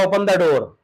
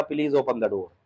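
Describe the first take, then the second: First: Plain firm command as a father; father ordering his son, firm plain command; father's order. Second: Softer, polite asking voice; polite request. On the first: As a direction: tell the son to open the door. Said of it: "पापा ने कहा". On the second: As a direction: ask the father respectfully, softly. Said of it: "बेटा पापा से कह रहा है". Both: Retold or imitated.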